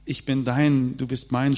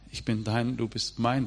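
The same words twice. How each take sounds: First: "Ich bin dein, du bist mein" called out louder, with feeling; proclaimed love vow. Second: Soft love vow. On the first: The preacher declaring God's love to the congregation, louder and fervent. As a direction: proclaim it like a carved lover's vow. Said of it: "schreibt man unter Liebesbriefe". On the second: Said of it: "Die Psalmen beginnen mit". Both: Retold or imitated.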